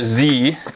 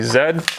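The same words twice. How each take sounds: First: The letter is said as zee, US style. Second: The letter is said as zed, non-US style.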